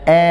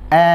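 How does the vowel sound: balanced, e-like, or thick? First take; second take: e-like; e-like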